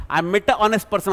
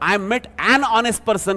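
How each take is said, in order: First: Said in the usual way. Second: An stressed and linked into honest; teacher giving the correct form after the wrong one. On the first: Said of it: "असं होईल ना". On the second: Shown as a demonstration. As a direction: land firmly on an before honest. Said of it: "हे आवश्यक आहे".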